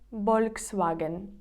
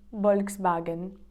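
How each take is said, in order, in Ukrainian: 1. Вимовляють по-іспанськи, з b. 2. Вимовляють по-іспанськи, з b.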